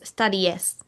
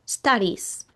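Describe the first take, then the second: First: The ending is said as an extra syllable. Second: The ending is just a plain s sound. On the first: The speaker calls it wrong. "No decimos studies" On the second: The speaker calls it right. "la pronunciación sigue siendo con una S al final"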